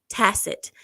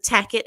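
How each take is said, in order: First: The word ends with a soft 'sit' sound. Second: The word ends with a hard 'ket' sound. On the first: The speaker calls it right. "tacit is the word that he was trying to say" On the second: The speaker calls it wrong. "couldn't even pronounce the word properly"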